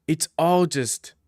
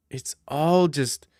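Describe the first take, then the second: No difference in how they are said.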